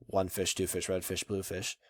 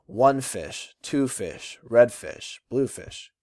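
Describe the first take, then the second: First: Said in the usual way. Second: Slow "one fish, two fish, red fish, blue fish", first word of each pair stressed; trochaic rhythm. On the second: Shown as a demonstration. Teacher reads Doctor Seuss to show trochees, rhythmic stress. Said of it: "when you're speaking that rhythm".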